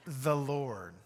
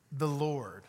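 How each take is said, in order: First: The Lord repeated, slow and emphatic; solemn repetition with a pause; slow weighty reading. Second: The Lord said slowly, with a long pause after; solemn, measured reading; slow weighty reading. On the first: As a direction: land on "Lord" again, deliberately. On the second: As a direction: let "The Lord" hang in the air. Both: Shown as a demonstration. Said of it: "I'm gonna read our passage together today very slowly".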